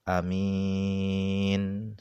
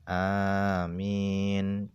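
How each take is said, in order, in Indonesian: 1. Vokal pertama adalah a pendek. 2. Vokal pertama adalah a panjang. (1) "dibaca pendek" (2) "Yang pertama dipanjangkan"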